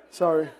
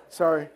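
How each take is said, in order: Both takes have the same delivery.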